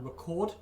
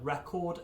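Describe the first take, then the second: First: CORD in "record" stressed, first syllable reduced; stress on second syllable. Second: RE in "record" stressed, rest unstressed; stress on first syllable. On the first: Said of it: "or stress the O on record". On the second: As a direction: say "record" as the noun, RE-cord. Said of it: "if you stress the E on record". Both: Shown as a demonstration.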